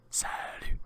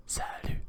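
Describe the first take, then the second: No difference in how they are said.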